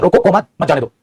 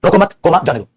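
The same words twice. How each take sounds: First: रोको, say comma in the break, then मत जाने दो; pause after रोको. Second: रोको मत together, the comma break, then जाने दो; pause after मत. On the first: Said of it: "वो कॉमा होता है". (रोको के बाद कॉमा बोलकर ठहराव, फिर मत जाने दो) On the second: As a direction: keep the break back until after the first मत. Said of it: "दोनों के मीनिंग में फर्क आ गया". (रोको मत के बाद ठहराव, फिर जाने दो) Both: Shown as a demonstration.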